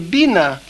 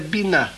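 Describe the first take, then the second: First: The stress is on the first syllable. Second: The stress is on the last syllable. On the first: It is a command meaning understand. "где ударение на первом слоге «бина», пойми" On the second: It is the noun meaning understanding or consideration. "Ударение на конце «бина»"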